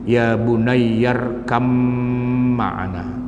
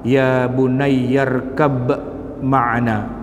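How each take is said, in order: First: The b merges into the following m sound. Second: The b is pronounced clearly with an echoing bounce. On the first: "huruf ba diidghamkan ke dalam mim sehingga suara sukun ba berubah menjadi sukun mim" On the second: "izhar yang berarti huruf ba-nya dibaca dengan qalqalah"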